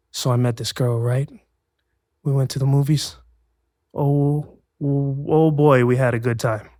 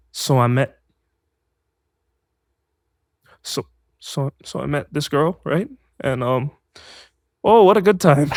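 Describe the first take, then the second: First: Measured audition read, retold; simple first read. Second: Botched different-tone read. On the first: Actor reading four lines for an agent, simple measured delivery. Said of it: "something simple like that". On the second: Retold or imitated. Actor thrown by a request for another tone, halting then overdone. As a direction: stumble through, then overdo the last line. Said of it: "read that in a different tone".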